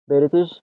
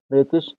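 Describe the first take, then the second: The two takes are said the same way.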